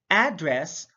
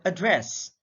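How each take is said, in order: First: ADdress, first syllable stressed; careful teacher's demo of ADdress. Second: AdDRESS, second syllable stressed; careful teacher's demo of adDRESS. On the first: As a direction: say "address" with the weight on AD. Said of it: "stress is the verbal emphasis used". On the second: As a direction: say "address" with the weight on DRESS. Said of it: "it can be read as". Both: Shown as a demonstration.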